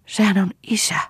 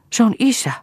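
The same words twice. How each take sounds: First: High-pitched cry of despair; desperate exclamation, pitch jumping up. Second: Very high, startled exclamation; scared voice, pitch leaping up; frightened. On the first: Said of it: "huudahti Lea epätoivoissaan". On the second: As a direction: blurt it out in alarm. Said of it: "sanoi Hanna pelästyneenä". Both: A narrator's reading.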